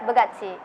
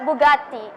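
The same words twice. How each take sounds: First: "Bugatti" in an American accent, "tt" softened toward "ch". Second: "Bugatti" in a British accent, with a plain crisp "t". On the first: Student answering interviewer's car question, American "Bugatti". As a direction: say "Bugatti" American-style, ending near "chee". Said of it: "in American accent". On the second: Student answering interviewer's car question, British "Bugatti". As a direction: say "Bugatti" British-style, ending in "tee". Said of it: "in British accent". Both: Shown as a demonstration.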